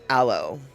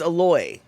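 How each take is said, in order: First: It is said the usual mainland American way. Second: It is said the way people say it in Hawaii. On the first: "we didn't call it aloe" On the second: "Aloe is how you say it in Hawaii"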